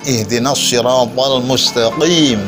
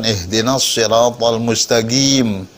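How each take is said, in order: First: The q in mustaqim has an echoing bounce. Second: The q in mustaqim sounds almost like a g. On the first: This follows the rule the speaker says is required. "harful qalqalah ... dia bisa mengulang bunyi" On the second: This is how people from one region say it. "orang Mesir ketika mengucapkan ... dia seolah-olah G kan"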